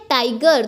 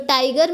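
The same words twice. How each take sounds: First: Said in the usual way. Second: tiger broken as "tig - er", first part rhyming with "bike"; tiger with a gap before the final "er"; split into syllables. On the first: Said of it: "tiger में भी दो syllable है". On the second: Shown as a demonstration. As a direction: say tiger in two separate beats, "taig", then "er". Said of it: "दो syllable है".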